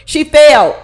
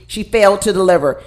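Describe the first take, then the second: First: Failed punched out loud; emphatic loud. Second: Said in the usual way. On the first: Shown as a demonstration. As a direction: hit "failed" hard and loud. Repeated louder.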